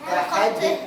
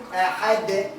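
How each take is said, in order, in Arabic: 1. صوت الـ d في الآخر بيتنطلق مع صدى خفيف. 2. صوت الـ d في الآخر بيتنطلق مع صدى خفيف.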